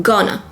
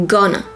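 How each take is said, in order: No difference in how they are said.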